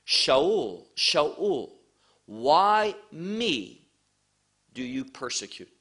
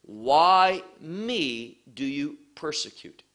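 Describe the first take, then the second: First: First reading, light weight on me; reading the verse. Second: "Why me" drawn out slowly, "me" weighted; slow down and lean on "me"; slow emphatic reading. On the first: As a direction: read the verse through once. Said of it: "the orders of the word is important". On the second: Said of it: "notice what it says". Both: Shown as a demonstration.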